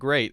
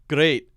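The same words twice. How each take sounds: First: The word is said with a standard accent. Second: The word is said with a Scottish accent. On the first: "instead of great" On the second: "we heard the word great"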